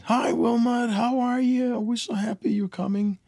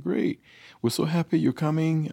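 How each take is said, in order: First: Very high sing-out imitation of a host mom; mock high-pitched welcoming woman's voice; gushing host mom. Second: High-pitched imitation of a delighted wife; imitating a cheery wife; wife's happy reply. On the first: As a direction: greet him as an overjoyed host mom, high and loud. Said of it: "Her host mom came on the phone". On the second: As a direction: answer the phone as a pleased wife, pitched up. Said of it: "So I called my wife up".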